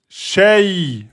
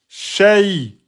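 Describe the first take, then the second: No difference in how they are said.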